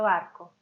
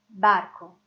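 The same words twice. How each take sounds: First: The b sound is said softly and lightly. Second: The b sound is said with more force. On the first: "lá no meio da frase, ela vai ser suave" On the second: "só tem um pouquinho mais de força quando é inicial"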